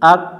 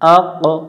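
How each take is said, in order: First: The final q stops flat without an echo. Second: The final q bounces with an echoing release. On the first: The speaker calls it wrong. "এটা প্রতিধ্বনি হয় না, এটা পাতলা উচ্চারণ হয়ে যায়" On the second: The speaker calls it right. "কফ অক্ষরে সুকুন থাকলে কলকলা করতে হয়"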